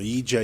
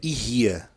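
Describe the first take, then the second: First: The middle consonant is a d sound. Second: The middle consonant is an h-like sound. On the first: "Tanto faz, meu" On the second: "A pronúncia correta é Irria"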